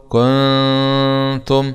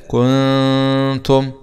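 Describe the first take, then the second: Both takes have the same delivery.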